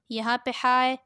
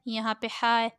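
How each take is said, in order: Both takes have the same delivery.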